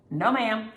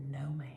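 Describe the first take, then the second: First: Said in the usual way. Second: "No, ma'am" in a soft whisper. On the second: Real, not acted. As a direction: breathe out "No, ma'am".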